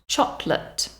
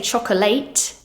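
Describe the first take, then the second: First: The final syllable has a weak schwa vowel. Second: The final syllable has a full, clear vowel. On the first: The speaker calls it right. "so it has a weak schwa sound" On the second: The speaker calls it wrong. "We don't say chocolate"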